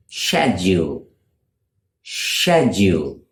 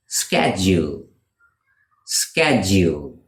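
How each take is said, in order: First: British "schedule", opening like "shed"; British pronunciation. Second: "schedule" said SKED-jool, with a hard sk; American "schedule", opening like "sked"; American pronunciation. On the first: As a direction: start "schedule" with a sh sound. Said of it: "In British English, they pronounce it". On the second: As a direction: start "schedule" with a sk sound. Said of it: "in American English, it is pronounced". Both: Shown as a demonstration.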